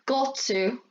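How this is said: The T is a crisp, clear T. "in British English, you get a clear T and D sound"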